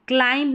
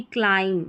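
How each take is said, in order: First: क्लाइंब with final b sounded; higher pitch, audible b in क्लाइंब; wrong pronunciation. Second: क्लाइम ending on m; silent b. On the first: Teacher showing the error, b voiced in क्लाइंब. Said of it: "क्लाइंब नहीं". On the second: Teacher giving correct form, क्लाइम with silent b. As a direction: stop क्लाइम on m, no b. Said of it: "बी silent रहता है". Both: Shown as a demonstration.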